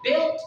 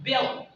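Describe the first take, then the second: First: BUILT with a clear final T; slow BUILT, release the T; final T sounded. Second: BUILT said like "bill"; slow BUILT, no T at the end; final T dropped. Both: Shown as a demonstration. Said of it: "you gotta not pronounce that".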